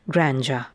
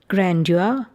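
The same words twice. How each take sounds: First: The d and y sounds merge into one. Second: The d and y sounds are heard separately. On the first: The speaker calls it wrong. "not grandeur" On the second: The speaker calls it right. "You do hear that d and the yacht"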